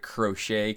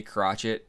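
First: Crochet as "kroh-SHAY"; French-style pronunciation. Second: Crotchet as "KROTCH-it"; spelling pronunciation. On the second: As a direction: say Crotchet with "tch" and a sounded t. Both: Real, not acted. Tries two pronunciations of surname.

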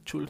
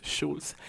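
First: Schulz said as "chuls", starting with CH; CH sound in Schulz. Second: Schulz said as "shuls", starting with SH; SH sound in Schulz. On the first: Podcaster checking how a name is said, CH in Schulz. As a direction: begin Schulz with a hard CH as in "church". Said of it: "creo que se dice". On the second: Podcaster contrasting a name's pronunciation, SH in Schulz. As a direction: begin Schulz with a soft SH as in "shoe". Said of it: "no es". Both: Shown as a demonstration.

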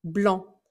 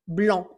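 First: Blanc ending on the nasal vowel, C left out; silent final C. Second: Blanc said as blã, no C at the end; silent final C. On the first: Teacher repeats Blanc for students, C unsounded. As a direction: say Blanc with no sound for the C. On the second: Teacher shows Blanc to students, final C silent. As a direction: drop the C in Blanc, end on the nasal vowel. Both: Shown as a demonstration. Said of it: "Attention de ne pas prononcer le C à la fin".

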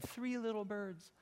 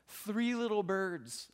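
First: Higher and softer, cooing the phrase like his wife; echoing wife. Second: Said in the usual way. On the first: Retold or imitated. Pastor echoes wife's delight at the nest, higher and softer. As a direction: repeat her words with her gentle coo. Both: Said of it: "is what she said".

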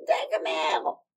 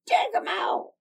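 First: Put-on louder call of a name, old hag voice; crone's call. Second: Much higher, louder screeching hag. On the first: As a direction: call the servant down. Old woman calls out. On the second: Acted. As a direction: screech it up into the rafters. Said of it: "screeched up into the rafters".

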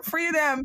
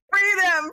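First: Said in the usual way. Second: Rallying shout. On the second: Real, not acted. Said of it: "calling out".

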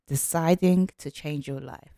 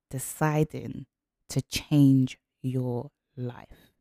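First: Said in the usual way. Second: Slow, each word weighed; slow emphasis. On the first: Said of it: "title repeated plain". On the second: Shown as a demonstration. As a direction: let the title land slowly. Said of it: "title phrase said slowly".

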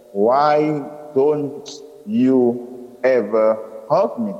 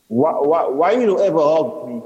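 First: Slow, separated, careful words; counting each word. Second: Nervous rush, tripping on the first word; racing through words. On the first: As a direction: ask it one word at a time. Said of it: "counting my words this time". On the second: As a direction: blurt the question out. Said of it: "racing through the words". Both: A narrator's reading.

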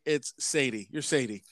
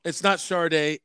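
First: Sade read as SAY-dee; literal Sade. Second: Sade as shar-DAY; SH start and DAY ending in Sade; usual Sade. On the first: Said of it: "it's not [name]". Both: Shown as a demonstration.

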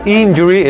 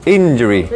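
First: "injury" with a big Spanish "ee" at the start, higher. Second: "injury" starting with a short, E-like "in", lower; injury with English I. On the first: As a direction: show the mistaken "injury", starting "een". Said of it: "No es injury". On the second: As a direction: correct to "injury" with a small lax I. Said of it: "en inglés es más cerrada". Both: Shown as a demonstration.

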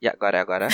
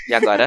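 First: Said in the usual way. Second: Sudden high-pitched check; high loud call. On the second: Real, not acted. Testing connection, much higher louder. (chamando alto e agudo)

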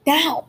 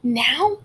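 First: NOW stated firmly, falling; insistent answer. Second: NOW as a rising question. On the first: Peter insisting to Molly, firm falling answer. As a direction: land NOW as a decided answer. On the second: Molly querying Peter's demand, rising question. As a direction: lift the end of NOW, doubtful. Questioning take, answered by same word. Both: A narrator's reading.

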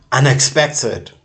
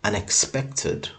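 First: Loud; shouted; sudden shout. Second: Said in the usual way. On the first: Acted. Sudden loud break in repetition.

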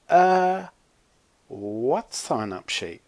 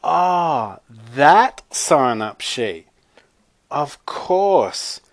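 First: Confused. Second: Exaggerated dawning realization, drawn out; catching on. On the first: Zoe to Chloe about an invented sheet, confused. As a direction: puzzle it out slowly, clueless. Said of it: "looking confused". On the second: Zoe finally playing along with Chloe's lie, exaggerated realization. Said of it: "Zoe caught on". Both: A narrator's reading.

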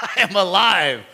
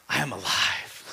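First: Triumphant I am alive. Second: Hushed I am alive. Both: Acted. Jesus speaking to fallen John.

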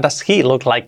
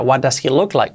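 First: "he" stressed to correct the pronoun. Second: Said in the usual way. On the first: Shown as a demonstration. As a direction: lean on "he", the other words lighter. Teacher corrects ella to he, él.

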